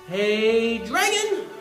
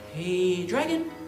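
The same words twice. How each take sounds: First: It is said loudly. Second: It is said softly.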